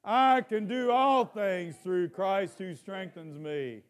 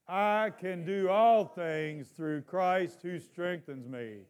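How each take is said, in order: First: It is said with strong, passionate energy. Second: It is said in a plain, calm way. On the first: "Let's say it with a little passion" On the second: "Let's say it together"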